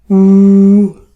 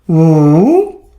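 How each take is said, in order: First: It is said with the first tone. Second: It is said with the third tone.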